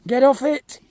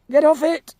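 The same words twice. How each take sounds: First: Said in the usual way. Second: Louder, more insistent repeat; louder command. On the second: Real, not acted. Farmer repeating a louder order to the cow on the feeder. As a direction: push it harder the second time.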